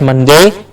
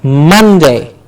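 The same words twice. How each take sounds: First: The stress is not on the first syllable. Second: The stress is on the first syllable. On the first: The speaker calls it wrong. "Not Monday" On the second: The speaker calls it right. "The mun gets a clear stress"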